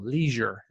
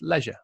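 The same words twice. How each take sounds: First: It is said with an American pronunciation. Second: It is said with a non-American pronunciation.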